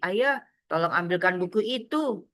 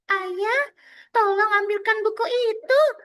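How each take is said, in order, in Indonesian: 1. Diucapkan dengan suara biasa penuturnya. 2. Diucapkan dengan suara anak kecil.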